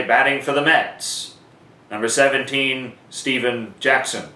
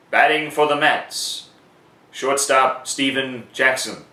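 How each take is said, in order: First: Same call with number seventeen added; PA announcer call. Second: Shorter stadium call with Steven Jackson said slowly; PA announcer call. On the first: Announcer giving the alternative version, in a short stadium call. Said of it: "You could also say". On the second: Announcer showing a later at-bat, in a short stadium call. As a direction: keep it brief but announced. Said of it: "it would sound something like this". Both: Shown as a demonstration.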